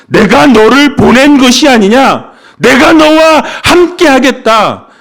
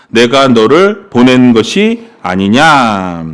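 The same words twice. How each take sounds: First: Louder, higher proclaiming of 너를 보낸 것이 아니냐; God's voice. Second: Slow, even reading of 너를 보낸 것이 아니냐; scripture reading. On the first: Pastor voices God recommissioning Gideon, louder and commanding. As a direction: proclaim it as God, with full authority. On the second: Pastor reads God's words to Gideon slowly, as scripture. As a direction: read it plainly from the page, slowly. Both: Shown as a demonstration. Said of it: "하나님은 다시 말씀해 주셨다".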